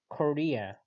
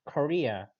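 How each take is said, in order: The two takes are said the same way.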